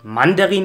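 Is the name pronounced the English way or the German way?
German. The name is pronounced the German way. "also die deutsche Aussprache"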